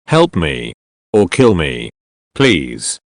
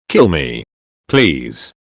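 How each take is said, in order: First: Low, weak plea from a broken man; a hint of a beaten captive begging to die. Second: Low, faint begging, trailing off; a beaten man's lightly voiced plea to be killed. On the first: Burnt captive begging for death. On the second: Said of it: "he begged". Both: A narrator's reading.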